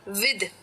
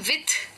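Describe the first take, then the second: First: The final th is voiced, like in this. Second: The final th is voiceless, like in thin. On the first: The speaker calls it right. "इसे hard के साथ pronounce करना होता है, यानी कि ये हो जाता है विद" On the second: The speaker calls it wrong. "कई लोग इसको प्रोनाउंस करते हैं विथ, यानी कि सॉफ्ट टीएच के साथ। गलत है"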